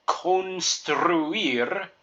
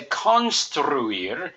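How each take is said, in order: First: Construir with a long o in con; construir, con like cone; correct construir. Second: Construir with a short ah in con; construir, con like con man; wrong construir. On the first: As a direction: model construir slowly. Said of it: "our last word". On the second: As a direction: construir said the way to avoid. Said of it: "we wouldn't say construir". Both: Shown as a demonstration.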